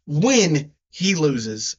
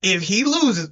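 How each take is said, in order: First: WHEN drawn out slowly as a correction; stress on WHEN. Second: Said in the usual way. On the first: Real, not acted. Podcaster correcting himself about the bet, stress on WHEN. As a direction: lean hard and long on "when". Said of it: "not if, when he loses". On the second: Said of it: "not if".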